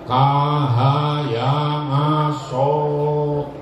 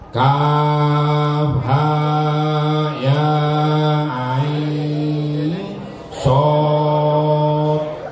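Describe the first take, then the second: First: The letter names are rushed and run together. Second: Each letter name is drawn out separately. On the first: The speaker calls it wrong. "Saking semangatnya macane" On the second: The speaker calls it right. "bacalah dengan huruf aslinya, panjang matnya sama"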